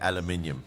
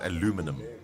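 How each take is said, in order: First: It is said in a non-American way. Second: It is said in an American way. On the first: The speaker calls it right. "real people say aluminium" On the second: The speaker calls it wrong. "It's only the Americans say that it's aluminum"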